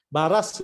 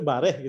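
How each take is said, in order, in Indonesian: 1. Diucapkan dengan akhiran -as. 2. Diucapkan dengan akhiran -eh. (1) "Baras itu" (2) "itu bareh gitu ya"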